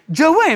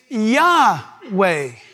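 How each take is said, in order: First: The name begins with a J sound. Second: The name begins with a Y sound. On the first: The speaker calls it wrong. "not Jahweh" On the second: The speaker calls it right. "No, it's Yahweh"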